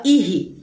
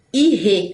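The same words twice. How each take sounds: First: "irre" as i-RI; common mispronunciation. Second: "Irre" as i-RE, clear E; correct pronunciation. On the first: Teacher shows what everybody says, common mispronunciation. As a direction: end "irre" on an I sound. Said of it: "Todo mundo fala irre". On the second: Teacher points out the syllable, correct pronunciation. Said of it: "olha só". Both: Shown as a demonstration.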